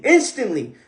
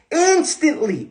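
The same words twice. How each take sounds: First: Said in the usual way. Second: "Instantly" thrown up high, falling; emphatic high "Instantly". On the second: Shown as a demonstration. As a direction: hit "Instantly" high then let it drop. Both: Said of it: "then instantly everything changes".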